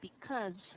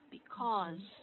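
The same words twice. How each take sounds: First: The word is unstressed with a reduced vowel. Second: The word is stressed with full vowels. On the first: "if you're not gonna stress it, it's gonna sound like because with a wedge" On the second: "this is the the stressed version of because"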